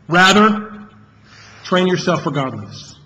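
The word "rather" carries the main stress.

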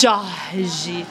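It has a light Rio de Janeiro ending.

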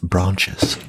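It is said in a British accent. "In British English, it's branches"

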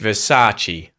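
The pitch drops only slightly across the word. "Whereas with English, it's just Versace"

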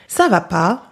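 It sounds exasperated, like "are you crazy?"

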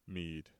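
It is read in a grave, serious voice.

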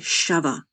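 It is said in a Ch'ti accent.

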